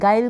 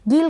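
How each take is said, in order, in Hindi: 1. स्वर 'eye' जैसा सुनाई देता है। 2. स्वर 'ee' जैसा सुनाई देता है। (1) "गाइल का मीन होता है धोखा या छल" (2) "गील का मीन नहीं होता है"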